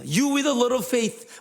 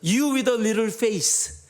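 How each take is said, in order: First: The last word ends with a th sound. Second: The last word ends with an s sound. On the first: It refers to faith. The speaker calls it right. "라고 얘기해야 되는데 한국 발음이 이 th 발음이 힘들잖아요" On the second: It refers to a face. The speaker calls it wrong. "이 얼굴이 작은 자야 왜 의심하였느냐라고 외친 거예요"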